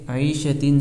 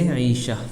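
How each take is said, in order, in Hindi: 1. यह शब्द t और नासिक ध्वनि पर खत्म होता है। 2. यह शब्द हल्की h की आवाज़ पर खत्म होता है।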